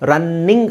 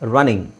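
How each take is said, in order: First: The middle n sound is doubled and held long. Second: The middle n sound is single and short. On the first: The speaker calls it wrong. "ಇಲ್ಲಿ ಎರಡು ಎನ್ ಇದೆ, ರನ್ನಿಂಗ್ ಅಲ್ಲ" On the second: The speaker calls it right. "ಒತ್ತಿ ಹೇಳೋ ಅವಶ್ಯಕತೆ ಇಲ್ಲ"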